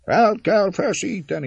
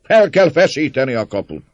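First: Terrible echo. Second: High, loud rallying cry; voice from crowd. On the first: Whole mob repeating the cry, echoing shout. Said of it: "ismétli a szörnyű visszhang". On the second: Man inciting the crowd against the gate, shouting. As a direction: urge the mob with a shout. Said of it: "hangzott egy szózat a tömeg között". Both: A narrator's reading.

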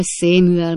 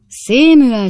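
First: Reproachful, quieter. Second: "Samuel" called out much louder and higher, a father's loud reproach; reproachful call. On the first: Old father rebuking his son Sam, softer sorrowful reproach. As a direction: let the second "Samuel" sink into disappointed reproach. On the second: Old father rebuking his son Sam, loud reproachful call. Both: A narrator's reading. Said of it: "szemrehányó hangon".

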